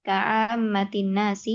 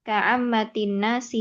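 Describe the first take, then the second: Both takes have the same delivery.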